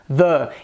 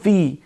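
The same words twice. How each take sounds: First: 'The' is said with a short 'thuh' vowel. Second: 'The' is said with a long 'thee' vowel. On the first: It comes before a consonant sound. "tiver o som de uma consoante em inglês, devemos optar por" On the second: It comes before a vowel sound. "ela possui o som de uma vogal em inglês, devemos optar por"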